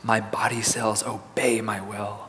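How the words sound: It is said in a quiet, soft voice. "let's say in a soft voice"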